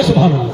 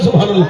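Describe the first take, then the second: First: Louder, lower call of praise. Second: Loud call of praise. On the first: Preacher urging the crowd to answer, loud. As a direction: push it out with force. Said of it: "ذرا بولے". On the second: Preacher showing the crowd how loud to answer, said loud. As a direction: say it with force. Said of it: "زور سے بولو". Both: Shown as a demonstration.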